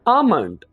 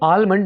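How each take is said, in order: First: The L sound is left silent. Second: The L sound is pronounced. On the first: The speaker calls it right. "यहां पर हमने एल को silent कर देना है" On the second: The speaker calls it wrong. "इसको आलमंड नहीं कहेंगे हम"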